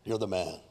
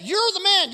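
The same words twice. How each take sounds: First: Very low, soft and deliberate; quiet accusation. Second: High, ringing accusation; forceful accusation. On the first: Nathan confronts King David, quiet and low. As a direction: drop right down and state it quietly. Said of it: "Nathan's like". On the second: Nathan confronts King David, loud and accusing. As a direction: fling the charge straight at the accused. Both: Acted.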